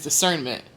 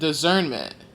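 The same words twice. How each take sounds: First: The consonant after 'di' is a hissing s. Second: The consonant after 'di' is a buzzing z. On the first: The speaker calls it right. "the way I say discernment is discernment" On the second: The speaker calls it wrong. "some people pronounce it discernment"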